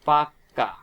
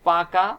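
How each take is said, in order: First: The k sound is doubled and held long. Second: The k sound is short and single. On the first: "পাকাকে বলতে পারি পাক্কা। অর্থাৎ এখানে দেখেন কয় কিন্তু দ্বিত্ব হয়ে গেছে।" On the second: "যেমন পাকা"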